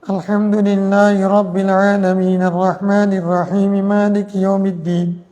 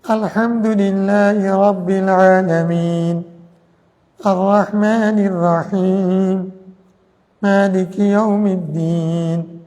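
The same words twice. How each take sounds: First: The verses run together without breathing pauses. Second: A breath pause comes after each verse.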